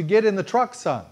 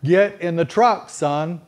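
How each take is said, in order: First: Said in the usual way. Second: Louder, rising call to get in; firm call. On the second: Shown as a demonstration. Father calling his son to the truck, firm and loud. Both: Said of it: "my response to".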